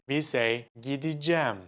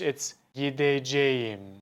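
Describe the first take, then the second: First: The word is said in a shortened form. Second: Every syllable is pronounced in full. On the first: "We say" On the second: "But no one says that"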